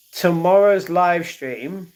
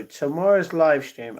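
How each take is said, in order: First: "Tomorrow's live stream" slower, higher and louder, rising at the end; emphatic restart. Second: Said in the usual way. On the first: Real, not acted.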